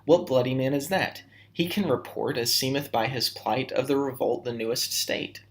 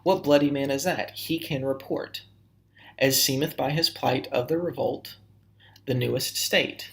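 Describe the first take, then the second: First: It flows on without pausing at verse-line ends. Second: It pauses at the end of each verse line.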